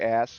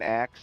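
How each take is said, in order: First: The word is said with s before k. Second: The word is said with k before s. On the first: The speaker calls it right. "they would say ask properly" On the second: The speaker calls it wrong. "instead of saying axe"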